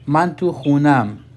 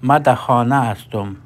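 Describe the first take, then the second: First: It is said in a colloquial Iranian accent. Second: It is said in a colloquial Afghan accent. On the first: "गुफ्तारी ज़बान में कहते हैं" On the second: "दरी में हम बोलते हैं"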